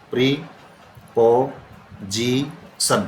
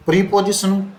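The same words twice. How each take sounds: First: preposition in four drawn-out pieces, प्री-पो-जी-सन, long pauses between; broken into syllables. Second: Said in the usual way. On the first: Shown as a demonstration. Teacher has class sound out the written word, preposition split syllable by syllable. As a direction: say preposition very slowly, one separated syllable at a time. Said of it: "आवाज़ कितनी बार टूटती है". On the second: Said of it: "इसको बोल करके देखना".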